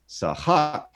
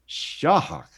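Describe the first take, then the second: First: The word begins with an s sound. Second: The word begins with an sh sound. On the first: It means to amuse. "if you pronounce it as sahak" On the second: It means to crush. "But if you pronounce it as shahak"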